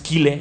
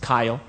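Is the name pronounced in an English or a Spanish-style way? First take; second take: Spanish-style; English. First: The name is read with Spanish-style sounds. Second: The name is said with English sounds. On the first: The speaker calls it wrong. "no es Kile" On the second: The speaker calls it right. "es Kyle"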